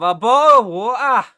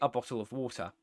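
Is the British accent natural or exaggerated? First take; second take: exaggerated; natural. First: It is said in a stereotypical British accent. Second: It is said in a natural British accent.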